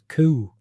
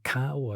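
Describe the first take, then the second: First: The vowel is a long oo sound. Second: The vowel is an ow sound. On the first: This is the older local form. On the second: This is the usual form.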